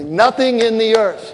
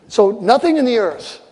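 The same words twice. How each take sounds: First: Slow call to repeat. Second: Said in the usual way. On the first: Shown as a demonstration. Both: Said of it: "say this with me".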